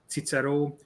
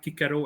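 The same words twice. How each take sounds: First: It is said in the traditional Hungarian Latin way. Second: It is said in the classical Roman way. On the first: This is how Latin has long been read in Hungary. "Cicero as Cicero" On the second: This is how the Romans themselves spoke. "They pronounced it as Kaiser, Cicero"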